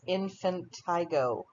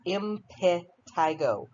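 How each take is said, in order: First: The word begins with the sounds of 'infant'. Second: The word begins with the sounds of 'imp'. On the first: The speaker calls it wrong. "often mispronounced as infantigo" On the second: The speaker calls it right. "It's not. It's impetigo"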